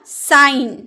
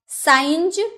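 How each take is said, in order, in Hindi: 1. यह साफ़ तौर पर n की ध्वनि पर खत्म होता है। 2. इसके आखिर में z जैसी एक अतिरिक्त ध्वनि है। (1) "साइन चिन्ह" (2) "साइंज नहीं ना"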